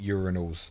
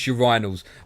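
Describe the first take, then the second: First: The word is pronounced the American way. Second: The word is pronounced the British way. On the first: "in America, most people pronounce it urinals" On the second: "it's urinals"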